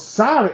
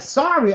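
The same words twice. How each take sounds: First: Said in the usual way. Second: Higher-pitched offended echo; incredulous echo. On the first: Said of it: "he goes". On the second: Retold or imitated. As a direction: throw the apology back in disbelief. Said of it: "And I'm like".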